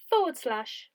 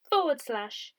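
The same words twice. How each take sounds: The two takes are said the same way.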